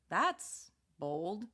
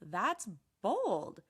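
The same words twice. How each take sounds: First: It is said in a careful, flat tone. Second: It is said in an excited, impressed tone. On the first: The listener thinks it was risky or questionable. "careful, surprised, maybe judgmental. Notice how the tone stays flat" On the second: The listener admires what was done. "positive, excited, impressed"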